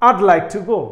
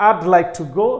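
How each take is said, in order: Both takes have the same delivery.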